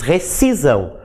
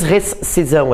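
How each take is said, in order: First: Recisão with the SC read as a single S; correct pronunciation. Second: Rescisão with the S sounded before the C, res-ci-são; rescisão pronounced as written, the S clearly heard before ci; wrong pronunciation. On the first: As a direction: say recisão without the extra S, re-ci-são. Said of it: "a gente diz recisão". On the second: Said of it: "A gente não diz rescisão". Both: Shown as a demonstration.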